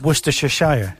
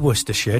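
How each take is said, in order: First: The word is said the American way. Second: The word is said the British way. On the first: "Do you know what they say?" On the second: "they don't say Worcestershire"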